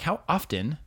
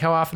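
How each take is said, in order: First: The t in often is pronounced. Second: The t in often is silent. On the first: This is formal public speaking. "if I'm preaching" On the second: This is casual talk among friends. "when I'm talking to friends"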